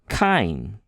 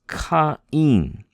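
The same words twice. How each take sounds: First: The two vowels glide together into one syllable. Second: The two vowels are said as separate syllables. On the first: "if there were no di, diaeresis there, ... we just pronounce it Cain" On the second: "but it's Cain"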